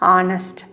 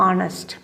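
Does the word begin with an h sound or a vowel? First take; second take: vowel; vowel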